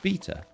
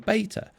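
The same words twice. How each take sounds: First: It is said with a British pronunciation. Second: It is said with an American pronunciation.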